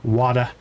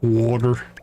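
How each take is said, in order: First: It is said with no R at the end. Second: It is said with an R at the end. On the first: "Or drop the R" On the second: "I know my Midwestern accent comes out"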